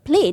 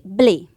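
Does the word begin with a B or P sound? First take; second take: P; B. First: The word begins with a P sound. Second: The word begins with a B sound. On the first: The speaker calls it right. "they cannot quite say the word play" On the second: The speaker calls it wrong. "They say blay"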